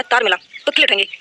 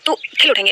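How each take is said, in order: First: Slowed right down, leaning on "खिल"; slow emphasis. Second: Said in the usual way. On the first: Shown as a demonstration. Teacher repeating a memory trick for students, slow and stressed. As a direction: repeat "तार मिला, तो खिल उठेंगे" slowly, stressing "खिल".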